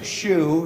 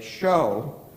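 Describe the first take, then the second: First: The word is said with an 'oo' vowel. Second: The word is said with an 'oh' vowel. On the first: The speaker calls it wrong. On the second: The speaker calls it right.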